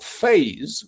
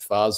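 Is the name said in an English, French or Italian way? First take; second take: English; Italian. First: It is pronounced the English way. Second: It is pronounced the Italian way. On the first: "which is what I call it, because I'm English" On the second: "the Italians will pronounce it"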